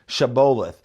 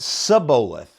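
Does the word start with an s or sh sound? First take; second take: sh; s. First: The word begins with an sh sound. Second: The word begins with an s sound. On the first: The speaker is from the east side of the Jordan. "They couldn't say shh" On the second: The speaker is from Ephraim. "They say s, right?"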